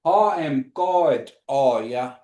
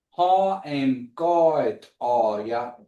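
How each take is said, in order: First: "Ha em God are ya?" heel langzaam, elke lettergreep apart; slow demo. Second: "Ha em God are ya?" nog trager herhaald; slower repeat. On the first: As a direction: drag out "Ha em God are ya?" syllable by syllable. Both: Shown as a demonstration. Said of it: "And the question is".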